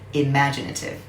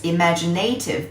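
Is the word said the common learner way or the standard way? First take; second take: standard way; learner way. First: The word is said with its standard pronunciation. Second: The word is said the way learners often say it. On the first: The speaker calls it right. "but it should be" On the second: The speaker calls it wrong. "A lot of students pronounce this word as"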